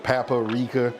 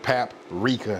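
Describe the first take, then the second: First: It is said in the speaker's own unusual way. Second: It is said in the usual standard way. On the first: "I call it paprika" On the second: "I know it's paprika"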